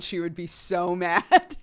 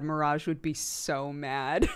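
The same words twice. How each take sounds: First: Louder, laughing through it. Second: Said in the usual way. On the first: Real, not acted. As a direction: crack up as you say it. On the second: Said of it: "I was like".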